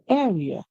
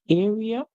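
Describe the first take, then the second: First: The first syllable sounds like 'air'. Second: The first syllable does not sound like 'air'. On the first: "you can say air, using the A R E as air, like in the word care" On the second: "You can say A and say R, E, and A"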